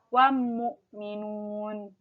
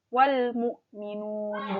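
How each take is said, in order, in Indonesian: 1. L menyatu menjadi bunyi M yang ganda. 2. Bunyi L terdengar jelas sebelum M. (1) "bukan wam mu'minun gitu" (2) "maka L-nya dibaca jelas"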